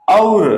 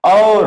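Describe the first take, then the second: First: Loud model of और as o; teacher shows और clearly; pronunciation demo. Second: Loud model of और as au; teacher shows और with au sound; pronunciation demo. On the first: Teacher explains vowel sound to pupils, loud demo. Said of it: "इसको तो बोलेंगे हम". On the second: Teacher contrasts au to pupils, loud demo. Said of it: "और इसको बोलेंगे हम". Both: Shown as a demonstration.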